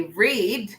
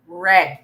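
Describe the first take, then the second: First: "read" with a long ee, like "reed"; present-tense pronunciation. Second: "read" with a short e, like "red"; past-tense pronunciation. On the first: Teacher showing which form is not the past tense, "read" said "reed". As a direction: say "read" to rhyme with need. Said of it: "we don't say read". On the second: Teacher teaching the past tense, "read" said "red". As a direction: say "read" to rhyme with bed, drawn out slowly. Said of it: "we say read". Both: Shown as a demonstration.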